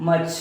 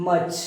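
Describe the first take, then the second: No difference in how they are said.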